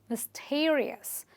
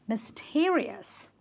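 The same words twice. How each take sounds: The two takes are said the same way.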